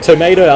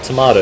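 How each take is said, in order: First: It is said with an American pronunciation. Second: It is said with an Australian pronunciation. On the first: "is like American pronunciation" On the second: "is how we say it around here"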